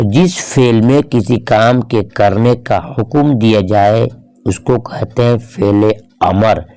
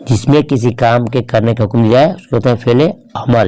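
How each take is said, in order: First: Slow, word by word; slow, measured definition. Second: Said in the usual way. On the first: Shown as a demonstration. Teacher defining the imperative verb to students, slow and measured. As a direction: spell out the definition slowly for learners.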